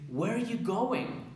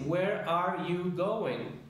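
First: The words run together into fewer beats. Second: Each word is said separately with even beats. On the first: The speaker calls it right. "El ritmo del inglés es" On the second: The speaker calls it wrong. "No se dicen las cuatro separadas como lo haríamos en español"

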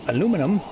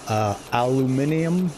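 First: The word is said with four syllables. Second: The word is said with five syllables. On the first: "than we do" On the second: "you pronounce it completely different"

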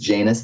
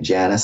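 First: The name gets its formal, classical pronunciation. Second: The name gets an altered, informal pronunciation. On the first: This is the original name of the god. "the actual Roman god's name is Janus. That's the formal definition" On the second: This is a personal habit of saying it. "I've been calling it Janus so long"

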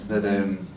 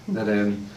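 No difference in how they are said.

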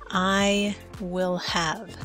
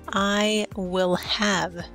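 No difference in how they are said.

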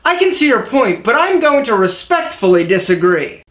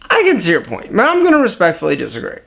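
First: The sentence is spoken clearly at a steady pace. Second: The sentence is mumbled and hard to make out. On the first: The speaker calls it right. "Check it out" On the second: The speaker calls it wrong. "if you mumble when you speak, you might sound like this"

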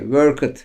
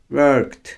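First: The ending is said as an extra syllable. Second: The ending is said as a plain t sound. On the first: The speaker calls it wrong. "worked, talked değil" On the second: The speaker calls it right. "Bunları T olarak okuyacağız"

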